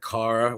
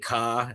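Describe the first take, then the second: First: The final r sound is pronounced. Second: The final r sound is dropped. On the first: This is the standard way to say it. "instead of car" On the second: This is how people from the speaker's hometown say it. "we have a very distinctive accent. ... certain letters we drop"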